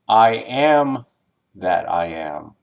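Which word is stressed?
first am. The stress is on the first am.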